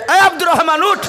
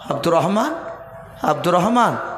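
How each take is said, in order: First: The name is shouted loudly. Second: The name is called softly.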